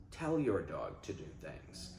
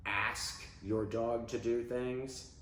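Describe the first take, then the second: First: Telling. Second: Asking. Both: Shown as a demonstration.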